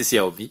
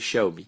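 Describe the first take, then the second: First: The name begins with an x sound. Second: The name begins with a sh sound. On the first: The speaker calls it wrong. "pour moi c'est Xiaomi" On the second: The speaker calls it right. "la vraie prononciation c'est Xiaomi"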